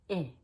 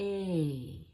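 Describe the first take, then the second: First: The vowel is one short, quick sound. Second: The vowel glides through two parts. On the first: "it's just E. Very quick" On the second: "In English, we have two parts to it"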